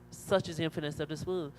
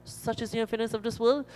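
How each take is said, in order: First: Stated as a fact, settling on "world"; plain declarative answer, "world" not raised; confirming statement. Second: Asked as a question, rising on "world"; high, puzzled question ending up on "world". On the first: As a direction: confirm it in the usual pitch, no lift on "world". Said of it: "So the bird says, Yes". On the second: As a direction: raise the pitch through to "world", seeking confirmation. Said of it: "Bird, is it true?". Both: Acted.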